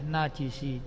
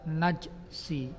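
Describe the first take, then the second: First: The j is followed by an i vowel. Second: The j is followed directly by s, no vowel. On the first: "juga bisa dibaca kasroh" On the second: "jimnya bisa dibaca sukun"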